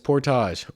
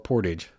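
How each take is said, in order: First: It is pronounced the Canadian way. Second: It is pronounced the American way. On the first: "depending on if you're Canadian" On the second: "or American"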